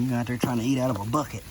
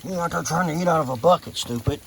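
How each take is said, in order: First: Said in the usual way. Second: Higher, quick chiding of a goat; teasing scold. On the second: Real, not acted. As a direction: chide the silly animal in a raised pitch.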